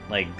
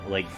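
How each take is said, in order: The two takes are said the same way.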